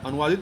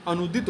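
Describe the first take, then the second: First: अनुवादित as anu-vaa-dit; wrong form. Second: अनुदित as anu-dit; correct form. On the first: Teacher rejects the word, अनुवादित with middle "vaa". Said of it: "नहीं होता". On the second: Teacher confirms the correct word, अनुदित without "vaa". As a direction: leave out any "vaa" in अनुदित. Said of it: "होता है शुद्ध". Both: Shown as a demonstration.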